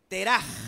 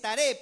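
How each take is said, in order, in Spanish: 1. El nombre termina en un sonido áspero de garganta. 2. El nombre termina en una vocal simple. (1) "en el hebreo es Teraj. Así, con la J fuerte" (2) "En el español es Taré"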